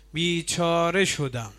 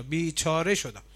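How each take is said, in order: First: Iblis lament. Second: Said in the usual way. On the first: Retold or imitated. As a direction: voice the devil crying out that he is ruined. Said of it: "شیطان میگه بیچاره شدم". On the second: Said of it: "شیطان میگه".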